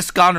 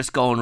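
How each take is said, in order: First: "scone" with a short open O, as in gone; scone rhyming with gone. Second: "scone" with a long O, as in bone; scone rhyming with bone. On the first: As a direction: say "scone" to rhyme with on. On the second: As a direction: say "scone" to rhyme with tone. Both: Shown as a demonstration. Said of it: "Some people call it a scone".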